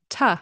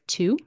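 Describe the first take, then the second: First: It is reduced to a short t sound. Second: It is said fully, like the number two. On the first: "it will turn into a t sound" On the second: "It's pronounced like the number two"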